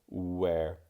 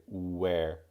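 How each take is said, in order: The two takes are said the same way.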